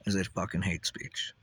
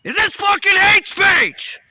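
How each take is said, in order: First: Said in the usual way. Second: Slow, much higher and louder enraged yell; angry shout. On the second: Shown as a demonstration. Ranter demonstrates anger modulation by screaming furiously. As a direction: blast "hate" with rage. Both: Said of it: "Can you sense the anger modulation?".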